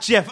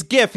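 First: "gif" said like jif; soft G in gif. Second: "gif" with a hard G, as in gift. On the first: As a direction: start "gif" with the J sound of jam. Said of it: "it's gif". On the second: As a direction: start "gif" with the G of go. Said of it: "not gif". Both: Shown as a demonstration.

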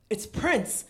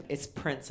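First: Sharp gasp, then higher-pitched exclamation; awed gasp. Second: Said in the usual way. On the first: Retold or imitated. Fan reliving hearing [name] in the earbud, awed gasp. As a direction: gasp as if starstruck. Acts out her stunned reaction to [name].

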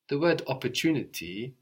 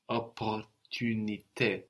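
First: Said in the usual way. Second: Opportunité slow, French vowels, ending in é. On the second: Shown as a demonstration. Teacher contrasting English and French words. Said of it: "in French".

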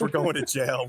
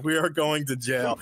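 First: Said in the usual way. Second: ARE set apart and stressed, uncontracted. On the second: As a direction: lean on the word "are" to make it certain. Emphatic repeat of the same words.

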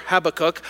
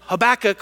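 First: Habakkuk stressed on the first syllable, HAB-uh-kook; pronunciation variant. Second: Habakkuk stressed on the second syllable, huh-BACK-uk; pronunciation variant. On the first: Pastor offers the alternative name, pronunciation variant. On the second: Pastor names the prophet one way, pronunciation variant. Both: Shown as a demonstration. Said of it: "Nobody knows really what the emphasis is".

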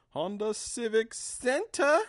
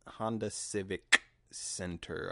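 First: Sing-song announcement, much higher and slower; high drawn-out call. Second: Said in the usual way. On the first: Real, not acted. Host announcing the venue to listeners, high and drawn out. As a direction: stretch it out high and slow, like announcing it. Calls out venue name found.

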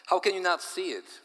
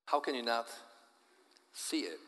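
First: High, loud exasperated question; exasperated outburst. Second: Said in the usual way. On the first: Acted. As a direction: throw up your hands and cry it out. Husband bewildered, exasperated question.

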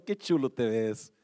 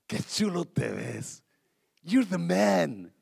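First: Admiring compliment. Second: Slower admiring compliment. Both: Shown as a demonstration. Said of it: "Míralo y dígalo".

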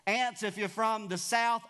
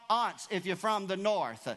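First: Aunts said like "ants", flat a as in cat; southern aunts. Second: Aunts said "ahnts", broad a as in father; northern aunts. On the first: Preacher jokes to the church, Aunts said like "ants". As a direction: say Aunts the southern way, rhyming with pants. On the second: Preacher contrasts for the church, aunts said "ahnts". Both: Shown as a demonstration.

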